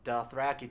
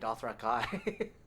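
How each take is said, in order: First: The final syllable sounds like 'key'. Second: The final syllable sounds like 'kai'. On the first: This is the common pronunciation. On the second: This is the creator's own pronunciation.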